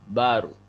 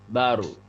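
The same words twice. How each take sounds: Both takes have the same delivery.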